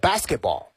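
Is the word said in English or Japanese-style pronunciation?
English. It is said with a plain English pronunciation. "英文呢是basketball"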